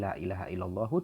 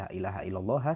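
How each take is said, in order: First: The final word ends with a short u vowel. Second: The final word ends with a short a vowel. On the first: The name is in the nominative case. The speaker calls it right. "lafadz Allah ini dibaca rofa menjadi" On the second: The name is in the accusative case. The speaker calls it wrong. "dan bukan"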